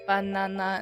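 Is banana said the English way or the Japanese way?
Japanese. Each syllable is said evenly and fully. "Japanese says it banana"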